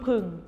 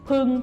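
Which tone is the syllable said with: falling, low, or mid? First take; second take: low; mid. First: The syllable has a low tone. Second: The syllable has a level mid tone. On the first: "เอก" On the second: "สามัญ"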